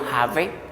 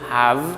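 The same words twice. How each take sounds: First: The word is said as two syllables. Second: The word is said as one syllable. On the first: The speaker calls it wrong. "yo no digo have" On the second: The speaker calls it right. "es monosílabo porque yo pronuncio have"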